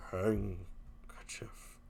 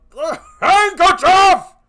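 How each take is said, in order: First: Low, slow, breathless threat; menacing whisper. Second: High, loud, raging cry; furious shout. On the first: Husband hisses at wife after his outburst. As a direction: hiss it out quietly. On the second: Jealous husband screams at his wife for the handkerchief. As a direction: roar the word at her. Othello explodes at Desdemona. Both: Acted.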